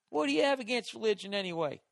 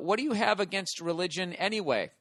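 First: It is read in an exaggerated stereotypical accent. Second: It is read in his normal voice.

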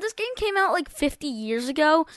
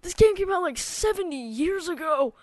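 First: It is said in his normal voice. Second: It is said in a put-on old man voice.

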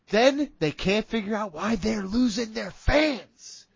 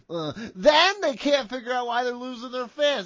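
First: It is read in a plain, ordinary speaking voice. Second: It is read in an exaggerated, put-on character voice.

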